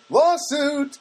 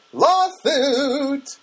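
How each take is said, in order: First: High sung cry; sung, belt the word lawsuit. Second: High, loud camp cry; flamboyant cry. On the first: Exclaims about the loose sink. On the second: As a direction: overplay the word Lawsuit. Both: Pretend.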